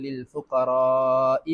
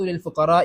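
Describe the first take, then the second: First: The vowel in fuqara is held long. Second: The vowel in fuqara is kept short. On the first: The speaker calls it right. "ഫുഖറാഇനെ നീട്ടി ഓതി" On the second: The speaker calls it wrong. "ഞാനിപ്പോ ഓതിയ പോലെ"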